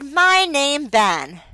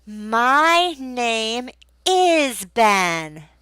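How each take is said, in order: First: Put-on child's mistake. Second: Very slow correction, is drawn out; stress on is. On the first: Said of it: "Or maybe the child said". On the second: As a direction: stretch the missing word is. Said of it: "Or you can point to your face". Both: Shown as a demonstration.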